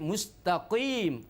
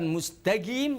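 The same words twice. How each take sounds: First: The q sound is a deep unvoiced q. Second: The q sound is voiced like a g. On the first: The speaker calls it right. "tapi mustaqim, ko" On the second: The speaker calls it wrong. "Bukan mustaqim"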